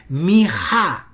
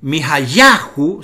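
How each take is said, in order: First: Mi-ha with the accent thrown onto ha; deliberate corrected Mi-ha, HA stressed. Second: Mi-ha-yahu with the accent on ya; stress on YA. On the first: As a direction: lean firmly on the second syllable of Mi-ha. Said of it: "sino que es Mi-ha". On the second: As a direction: lean on the penultimate syllable of Mi-ha-yahu. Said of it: "ahora el acento no es". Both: Shown as a demonstration.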